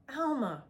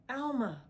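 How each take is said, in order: First: Louder, higher screamed name; screaming. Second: Mild screamed name, higher; screaming. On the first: Villain calling for his accomplice again, screaming. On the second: Villain calling for his accomplice, screaming. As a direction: yell out the name. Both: A narrator's reading. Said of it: "the man screamed".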